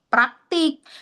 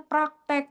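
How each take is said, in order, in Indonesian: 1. Suku kata kedua memakai vokal i. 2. Suku kata kedua memakai vokal e. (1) "padahal harusnya kita tulisnya praktik" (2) "Kita nulisnya praktek"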